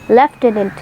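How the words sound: It is said the British way, lef-tenant.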